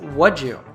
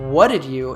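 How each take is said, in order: First: The words blend, with 'did' reduced to a j-sound. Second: Each word is said fully, with a clear 'did'. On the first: "he simply says what'd you" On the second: "instead of what did you"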